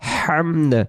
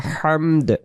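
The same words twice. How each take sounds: First: The word ends with a d sound. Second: The same.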